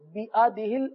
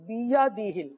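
First: The middle consonant is a glottal stop. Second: The middle consonant is a y sound. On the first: The speaker calls it wrong. "جلدی جلدی پڑھنے کی وجہ سے بیادہ ال ہو جاتا ہے" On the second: The speaker calls it right. "جبکہ یا ہے"

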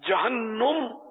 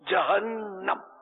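First: The vowel after the n is not 'a'. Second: The vowel after the n is 'a'. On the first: The speaker calls it wrong. "یہ تلفظ غلط ہے یا غلط العوام ہے" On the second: The speaker calls it right. "نون پر زبر ہے, جہنم یہ قرآنی لفظ ہے"

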